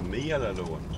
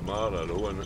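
First: The first syllable sounds like 'mee-al'. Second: The first syllable sounds like 'mal'. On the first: It names the woman who lived by the lough. "but this is a meal alone" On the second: It names a different family's home. "the Mallon home in Oma is a Mall alone"

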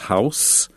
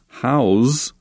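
First: The word ends with an s sound. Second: The word ends with a z sound. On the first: It names a building to live in. "the noun is house" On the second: It means to keep or contain something. "but pronounced with a z sound"

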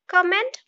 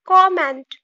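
First: The stress falls on the second syllable. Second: The stress falls on the first syllable. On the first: The speaker calls it wrong. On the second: The speaker calls it right.

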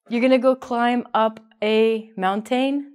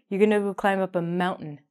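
First: The T and the vowel after it are fully pronounced. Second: The T and the vowel after it are dropped. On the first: The speaker calls it wrong. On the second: The speaker calls it right. "it's going to sound like mountain"

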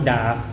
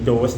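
First: It is said with an ah vowel, daas. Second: It is said with an oh vowel, dose. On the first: The speaker calls it wrong. "หรือว่าดาสนะฮะ" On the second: The speaker calls it right. "อันนี้เป็นโดส"

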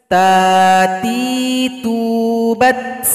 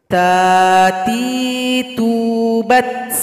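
Both takes have the same delivery.

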